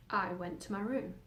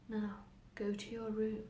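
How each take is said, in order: First: Said in the usual way. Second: Soft, slow command; hushed inner voice. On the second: Acted. Voices in her head send the girl away, hushed. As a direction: quietly draw out the order.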